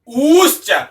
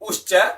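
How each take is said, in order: First: The vowel is held for three beats. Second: The vowel is held for one short beat. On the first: This is the prolonged vowel measure. "ऊश्च इसमें तीन मात्राएं" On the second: This is the short vowel measure. "उश्च में एक मात्रा है"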